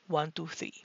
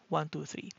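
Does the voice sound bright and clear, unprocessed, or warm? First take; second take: bright and clear; unprocessed. First: The voice is processed to sound brighter and crisper. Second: The voice is heard without any tonal enhancement. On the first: "voice enhancer set to clear" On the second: "let's start with off first"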